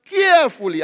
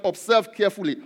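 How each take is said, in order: First: "carefully" punched high and loud; emphasized word. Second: Said in the usual way. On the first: Real, not acted. Preacher wants the word underlined, "carefully" said emphatically. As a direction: hit "carefully" hard, higher and louder. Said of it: "I just want to emphasize those words". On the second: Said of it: "I want you to underline that word".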